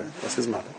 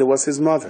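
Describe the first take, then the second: First: Much softer, almost under breath; soft echo. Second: Said in the usual way. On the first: Shown as a demonstration. Repeating to listeners, his mother, hushed. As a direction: let it fall away to a hush. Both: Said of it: "repeated softly".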